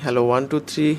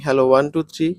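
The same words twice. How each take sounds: First: The raw voice plays with no noise cancellation. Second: The voice plays with the strongest noise cancellation. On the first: "এটি হচ্ছে Ulanzi এ hundred এর র voice" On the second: "এরকম একটি voice quality আপনারা level three তে পেতে পারেন"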